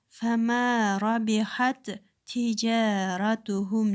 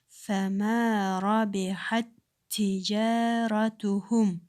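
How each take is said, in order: First: The two t sounds are read separately. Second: The two t sounds merge into one doubled t. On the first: The speaker calls it wrong. "бөлүп окуганыбыз туура эмес" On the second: The speaker calls it right. "бул туура болуп эсептелет"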